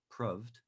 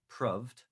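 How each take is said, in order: First: The vowel is short, like in 'love'. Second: The same.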